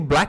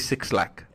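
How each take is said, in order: First: The name is said as one syllable, 'black'. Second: The name is said as 'six' then 'lack'. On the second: "or you guys say Six Lakh?"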